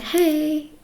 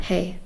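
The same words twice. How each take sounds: First: Bright, higher cheerful hey; lively greeting. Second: Flat, quiet robotic hey. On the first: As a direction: greet someone with real energy. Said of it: "They won't be like". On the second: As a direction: say it like a tired robot. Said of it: "they'll talk like a robot". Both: Retold or imitated.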